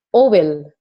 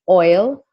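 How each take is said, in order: First: The word is drawn out into two syllables. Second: The word is said as one syllable. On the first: The speaker calls it wrong. "he pronounces words parang ano talaga yung yung vowel sounds niya" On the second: The speaker calls it right. "instead of say saying oil"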